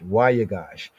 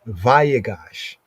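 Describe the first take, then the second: First: It is said in the Afro-Shemitic pronunciation. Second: It is said in the commonly used pronunciation. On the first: "in the Afro-Shemitic enunciation"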